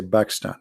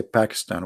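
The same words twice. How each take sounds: First: "Pakistan" starting with a B sound; Pakistan without P. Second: "Pakistan" with a clear English P. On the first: Arab speaker showing how Arabs say it, "Pakistan" with B. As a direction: swap the P in "Pakistan" for B. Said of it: "we say Pakistan". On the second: Arab speaker showing what Arabs don't say, "Pakistan" with P. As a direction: start "Pakistan" on a puffed P. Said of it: "we don't have letter P". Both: Shown as a demonstration.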